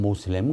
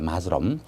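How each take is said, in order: First: The word begins with an 'oh' vowel. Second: The word begins with an 'ah' vowel. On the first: This is the common Korean way to say it. "얘들 모슬렘 모슬렘 그러죠" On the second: This is how it is read in English. "영어로 읽을 때는 마스럼이라고 읽을 때"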